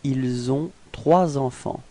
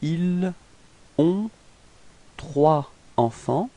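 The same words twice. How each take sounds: First: Linking z sounds join the words together. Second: The words are said without linking sounds. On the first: "if we make the liaison" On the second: "if we didn't make the liaison"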